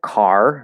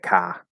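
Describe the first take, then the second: First: The final R sound is clearly pronounced. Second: The final R sound is dropped entirely. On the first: "instead of car" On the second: "they'll say car"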